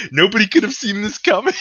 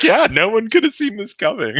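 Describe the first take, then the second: First: High, loud, hammed-up Trump protest; mock Trump. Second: High, laughing parrot of the line; mock Republicans. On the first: Podcaster mocking Trump after the meteor hits, high mock shout. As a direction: play Trump crying innocence, over the top. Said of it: "Trump will be like". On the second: Podcaster mocking Republicans echoing Trump, high and laughing. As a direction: echo it like a yes-man, giggling. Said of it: "Republicans will be like".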